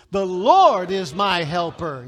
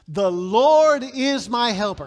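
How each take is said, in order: First: Slow, much louder, with conviction; like you mean it. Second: Slow, much louder call-and-response; congregation echo. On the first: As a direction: shout it like you truly believe it. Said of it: "say it like you mean it". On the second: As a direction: lead the crowd through it loud and slow. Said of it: "Say that with me". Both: Shown as a demonstration.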